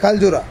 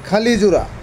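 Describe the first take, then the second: First: The name has three syllables, without the i vowel. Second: The name has four syllables, with an i vowel. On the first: This is the form most people use. "বেশিরভাগ মানুষে বলে খালজুরা" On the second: This is the form the speaker knows. "জায়গাটার নাম আমি জানি খালিজুরা"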